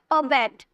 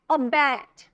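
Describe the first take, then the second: First: Said in the usual way. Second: अबैट with its second syllable drawn out and stressed. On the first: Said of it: "ऐसे नहीं बोलेगा". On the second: Shown as a demonstration. Teacher showing where the stress falls, stressed अबैट. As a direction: lean hard on the end of अबैट. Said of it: "जोड़ दे रहे हैं ना".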